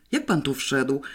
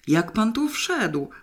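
First: Mildly suspicious question, stress on "Jak". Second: High, drawn-out despairing question; anguished demand without much extra volume; desperate cry. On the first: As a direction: ask it with understated suspicion. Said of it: "podejrzliwie spytał grafik". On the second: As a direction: cry it slowly, pitched up in despair. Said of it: "wrzasnął rozpaczliwie". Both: A narrator's reading.

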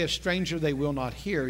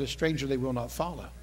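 First: HEAR picked out at the low end of the phrase; low-pitched line with the weight on "hear"; stress on HEAR. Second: Low, softer line contrasting "follow"; stress on FOLLOW. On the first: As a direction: lean on the last word, "hear". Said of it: "He didn't say". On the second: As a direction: FOLLOW set against the word it replaces. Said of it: "He said". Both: Shown as a demonstration.

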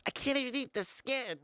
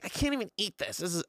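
First: High-pitched mock complainer voice; put-on higher complaining voice; exaggerated complaining mom. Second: Lightly voiced complaining mom, a bit higher; toned-down retold complaint; tired, grumpy mom. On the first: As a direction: caricature mom griping about dinner, pitched high. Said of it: "she doesn't complain like that". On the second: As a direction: mildly imitate mom in a bad mood. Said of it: "tired and kind of in a bad mood".

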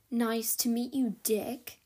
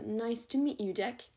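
First: Precise, clipped mock of Fitz's accent. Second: Said in the usual way. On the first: Dex mimics Fitz's precise accent to Sophie. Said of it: "in an uncanny impersonation of Fitz's precise accent". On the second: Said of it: "with a hasty nod".

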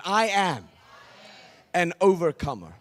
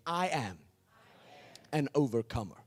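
First: Louder, firmer declaration; like you mean it. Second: Said in the usual way. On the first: Shown as a demonstration. Preacher urging the crowd to mean it, louder. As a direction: say it with conviction. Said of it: "say it like you mean it". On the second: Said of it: "just say this with me".

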